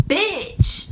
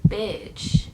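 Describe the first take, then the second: First: Pitched up high with outrage; sudden high indignant "Bitch"; indignant outburst. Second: Muttered thought. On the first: Sitting in her hit car, a high indignant burst. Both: Retold or imitated. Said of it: "I'm just thinking, like".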